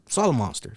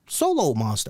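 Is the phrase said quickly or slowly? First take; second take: quickly; slowly. First: The phrase is said quickly and smoothly. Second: The phrase is said slowly and deliberately. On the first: The speaker calls it right. "you gotta let it roll off your tongue a little quicker" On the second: The speaker calls it wrong. "that's not how you say it"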